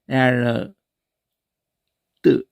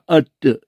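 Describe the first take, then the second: First: It is read out letter by letter, 'eh-ar-tt'. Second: It is said as a short 'uh-tt' sound. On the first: This is how the spelling would read literally. "에아르 뜨 이렇게 안 하고" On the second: This is how people actually say it. "그냥 어뜨 이러거든요"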